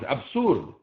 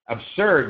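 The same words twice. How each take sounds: First: The stressed vowel sounds like a u. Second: The stressed vowel is the er sound. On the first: The speaker calls it wrong. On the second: The speaker calls it right.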